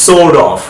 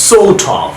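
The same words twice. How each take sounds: First: "sort of" as "sor-dov"; American flapped "sort of"; American soft D. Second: "Sort of" as "saw-tov", higher pitched; crisp aspirated T in "Sort of", no R; British clear-T "Sort of". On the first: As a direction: turn the T in "sort of" to a D. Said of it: "আমেরিকানরা ডি এর মতো sound করছে". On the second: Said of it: "ব্রিটিশরা টি এর মতো sound করছে". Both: Shown as a demonstration.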